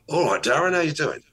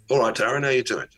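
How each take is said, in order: First: Higher, brighter-pitched greeting; pitched-up friendly hello; going up. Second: Said in the usual way. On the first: Shown as a demonstration. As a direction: lift the pitch right up on the greeting. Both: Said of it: "I can go up".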